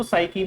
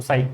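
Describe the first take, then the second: First: साइकी with an added "ee" ending; alternative pronunciation. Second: साइक as one syllable, ending on k; preferred pronunciation. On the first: Teacher shows students how others say it, साइकी ending in "ee". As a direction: say साइकी in two syllables, sai-kee. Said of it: "बहुत सारे लोग इसको साइकी भी बोलते हैं". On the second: Teacher tells students how to say it, साइक ending on k. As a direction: say साइक with no "ee" after the k. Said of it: "मतलब साइकी बोलना है इसको". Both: Shown as a demonstration.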